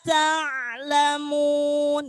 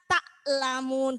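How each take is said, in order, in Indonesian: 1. Bunyi ain ditahan dan disambung dengan halus. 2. Bunyi ain dilepas dengan jeda. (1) "Jadi tidak boleh lepas" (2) "Jadi kebanyakan kita ta'lamun gitu ya"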